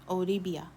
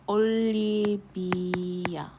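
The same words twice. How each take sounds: First: The L sound is plain and hard. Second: The L sound is softer and doubled. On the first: The speaker calls it wrong. "you might have come up with this" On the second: The speaker calls it right. "she probably wants a softer L in there"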